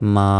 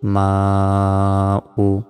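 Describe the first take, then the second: First: The word ends on the long 'a' vowel. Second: The word ends with a final 'u' vowel. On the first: The reading stops at this word. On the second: The reading continues without stopping.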